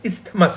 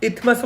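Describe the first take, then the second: First: The word is said with an s before th. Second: The word is said without an s before th. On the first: "ইস্থমাসও বলা যায়" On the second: "ইথমাসও বলা যায়"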